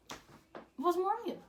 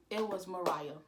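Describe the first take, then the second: First: High-pitched, stretched-out repeat of the name; dramatic reveal. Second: Said in the usual way. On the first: Real, not acted. Telling viewers who he cheated with, dramatic high reveal. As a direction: draw it out high, slowly, for effect.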